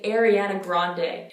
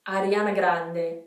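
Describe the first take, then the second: First: It is said with an English accent. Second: It is said with an Italian accent. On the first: "In English, we say Ariana Grande" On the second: "if we said it in, Itali in Italian, it would be"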